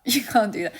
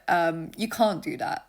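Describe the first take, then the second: First: Louder, laughing repeat; amused but firm, a touch louder; laughing insistence. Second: Said in the usual way. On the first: Shown as a demonstration. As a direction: press the point with a laugh. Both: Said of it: "repeats for emphasis".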